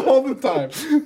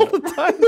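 First: Higher, shouted ALL the time; mock scream. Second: Said in the usual way. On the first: Shown as a demonstration. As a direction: yell it like every character does. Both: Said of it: "I was just screaming right there".

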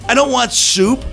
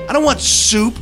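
The two takes are said the same way.

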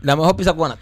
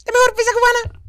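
First: Robot voice. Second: Much higher, tight ad voice; high squeaky voice. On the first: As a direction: speak like a talking machine. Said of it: "Ese sonido está bueno". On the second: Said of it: "Esa, esa voz está buena". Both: Acted.

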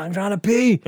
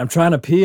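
First: High, acted whiny complaint; indignant protest. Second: Said in the usual way. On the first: Drunk man answers guard tapping him, indignant protest. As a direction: protest it pitched up, mock-aggrieved.

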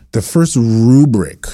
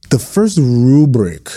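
First: "the first rubric" slow, stress on "first" again; slow emphatic. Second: "The first rubric" slow, stress on "first"; slow emphatic. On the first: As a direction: repeat "the first rubric" slowly, hitting "first". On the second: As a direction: lean hard on "first" in "The first rubric". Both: Real, not acted. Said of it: "Let me say that one more time".

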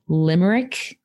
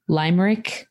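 First: "limerick" with a short i, LIM-er-ick; first vowel of "limerick" as in "lip"; short-i pronunciation. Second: "limerick" with a long i, LIME-rick; first vowel of "limerick" as in "eye"; long-i pronunciation. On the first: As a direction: say "limerick" opening like "limb". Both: Shown as a demonstration. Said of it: "I never know how to pr-, properly pronounce this word".

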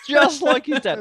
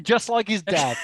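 First: Higher and louder, stressing the words; louder emphatic repeat. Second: Said in the usual way. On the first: Shown as a demonstration. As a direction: belt it out the second time.

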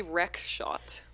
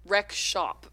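First: "rec shot" said ending in a hard t sound; "rec shot", with shot rhyming with hot; wrong word. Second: "Rec shop" said ending in a clear p sound; corrected word. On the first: Host misreads her own transcription, saying "rec shot" with a t. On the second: Host repeats the correction, saying "Rec shop" with a p. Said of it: "Oh, that was rec shop". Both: Shown as a demonstration.

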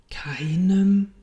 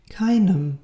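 First: Questioning KEINEM with a rising lilt; hushed disbelief. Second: KEINEM stated firmly with a falling tune; assured Keinem, voice coming down at the end; calm repetition. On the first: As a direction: ask "Keinem?" as if you can hardly believe it. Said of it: "konnte kaum glauben, was Gott da sagte". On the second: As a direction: confirm "Keinem" as a settled fact. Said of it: "wiederholte Gott". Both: A narrator's reading.

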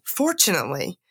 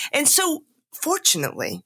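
First: Said in the usual way. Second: Emphatic fortunately. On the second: Real, not acted. Relieved speaker stressing her recovery, pitched up.

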